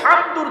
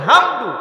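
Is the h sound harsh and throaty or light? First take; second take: throaty; light. First: The h is a harsh, throaty sound. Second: The h is a light, breathy sound. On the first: It means praise. The speaker calls it right. "হামদুর শব্দের অর্থ হচ্ছে প্রশংসা" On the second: It means destruction. The speaker calls it wrong. "হামদুর মানে হচ্ছে ধ্বংস"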